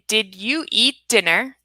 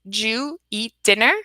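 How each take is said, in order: First: Each word before 'dinner' is said separately and fully. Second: 'You' is dropped, leaving two syllables before 'dinner'. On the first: "That's a four sounds in a sentence" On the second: "we reduce it to"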